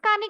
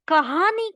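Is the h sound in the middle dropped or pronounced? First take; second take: dropped; pronounced. First: The middle h sound is dropped. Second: The middle h sound is clearly pronounced. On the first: The speaker calls it wrong. "बात करते वक़्त हम लोग बोलते हैं" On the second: The speaker calls it right. "जबकि हमें कहना है"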